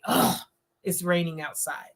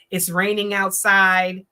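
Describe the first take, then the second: First: Groan, then a softer, lower, fed-up line; annoyed. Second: Said in the usual way. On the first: Shown as a demonstration. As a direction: sound put out about the rain. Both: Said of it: "It's not what you said, it's how you said it".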